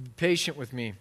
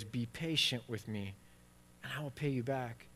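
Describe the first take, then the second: First: Said in the usual way. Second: Quieter begging. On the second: Retold or imitated. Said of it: "he said this, the same phrase".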